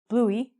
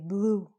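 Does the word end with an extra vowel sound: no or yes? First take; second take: yes; no. First: An extra vowel sound is added at the end. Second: It ends without any extra vowel sound. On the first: The speaker calls it wrong. "we don't say bluey" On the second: The speaker calls it right. "We just say blue. The E is silent"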